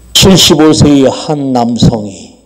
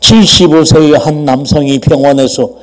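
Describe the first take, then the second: First: There is a pause after 남성이. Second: It runs on without a pause after 남성이.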